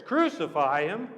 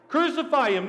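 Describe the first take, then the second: First: Disbelieving question with a rising end; incredulous. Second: High, forceful mob shout; crowd shouting. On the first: Pilate echoes the crowd's demand, incredulous. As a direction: ask it as if you can't believe it. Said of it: "Pilate couldn't believe his ears". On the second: Crowd demands Jesus' death from Pilate, shouting high. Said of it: "the crowd shouted for Jesus' blood". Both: Acted.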